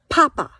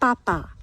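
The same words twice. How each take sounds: First: The P is released with a puff of air. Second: The P is crisp with no puff of air. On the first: The speaker calls it wrong. "In English, we say pork, papa. The candle is flickering" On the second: The speaker calls it right. "In French, we say porc, papa. Your mouth is more terse and taut"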